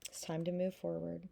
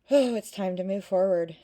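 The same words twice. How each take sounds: First: Said in the usual way. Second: A sudden loud burst of encouragement; loud urging. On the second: Real, not acted. Tarot reader urging a viewer forward, loudly. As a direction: call it out, pushing them onward.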